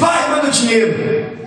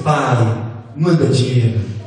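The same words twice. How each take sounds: First: It sounds like a rude, demanding order. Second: It sounds like a gentle, pleading request.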